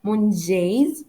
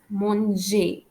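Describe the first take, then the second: First: "mangez" with the final z sounded; wrong pronunciation. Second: "manger" ending on an open "ay"; silent final letter. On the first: French teacher showing learners what to avoid, z voiced in "mangez". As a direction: say "mangez" wrongly, buzzing the last z. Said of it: "I don't pronounce it as". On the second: French teacher giving the correct model, "manger" ending in "ay". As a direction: say "manger" as mon-zhay, no end consonant. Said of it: "we pronounce it as manger". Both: Shown as a demonstration.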